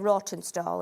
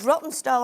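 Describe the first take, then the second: First: The first syllable sounds like 'raw'. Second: The first syllable sounds like 'rot'. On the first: The speaker calls it wrong. "I always say it wrong. I always say Rawtenstall ... it's got a W in there, so it's raw for me" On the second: The speaker calls it right. "it's not pronounced like that, Sheila. It's it's Rottenstall"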